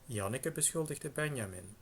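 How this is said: The pitch falls after the accented syllable ben starts.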